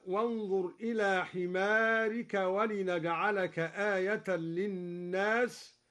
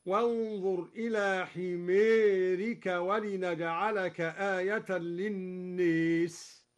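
First: Said in the usual way. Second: حمارك with its long a bent to ee, حميرك; slow, للناس leaning to lin-nees; imala on himarik and lin-nas. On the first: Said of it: "أمال كلا من حمارك وللناس". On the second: Shown as a demonstration. Teacher demonstrating full imala. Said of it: "هكذا".

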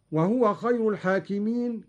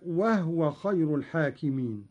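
First: Said in the usual way. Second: No u after the ه of وهو; two-syllable وهو, breathed h closing the first; vowelless ha. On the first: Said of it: "كذلك بإسكان الهاء". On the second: Shown as a demonstration. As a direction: recite وهو as "wahwa". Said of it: "بإسكان الهاء".

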